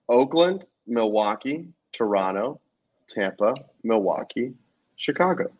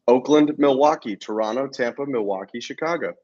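First: The list is said slowly. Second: The list is said at normal speed.

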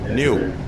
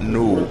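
First: The vowel has a y glide, like 'nyoo'. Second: The vowel has no y glide, like 'noo'. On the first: The speaker calls it right. "It's Newton, N-E-W-T-O-N" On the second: The speaker calls it wrong. "like N-O-O-T-O-N"

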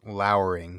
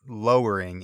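First: It is not said like 'lower', as in getting lower. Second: It is said like 'lower', as in getting lower. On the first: Something is dark, gloomy and threatening. The speaker calls it right. "It's lowering, which means looking sullen" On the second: Something is getting lower. The speaker calls it wrong. "it's not lowering in the sense of getting lower"

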